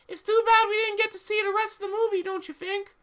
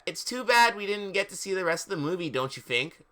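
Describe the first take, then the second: First: It is in Satan's character voice. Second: It is in the narrator's own voice.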